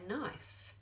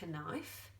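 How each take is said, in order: First: The K sound is silent before the N. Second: The K sound is pronounced before the N. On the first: The speaker calls it right. "we just say knife" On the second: The speaker calls it wrong. "We don't say knife"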